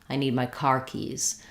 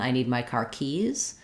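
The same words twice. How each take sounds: First: The stress falls on the word car. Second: The stress falls on the word keys. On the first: The speaker calls it right. "we stress on the first part of it" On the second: The speaker calls it wrong. "rather than"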